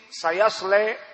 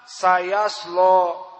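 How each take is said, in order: First: The long vowel after the l leans toward e. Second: A thick heavy l gives a dark vowel. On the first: "ada al-imalah" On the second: "dinamakan lam al-mughalladhah"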